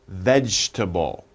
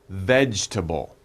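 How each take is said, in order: No difference in how they are said.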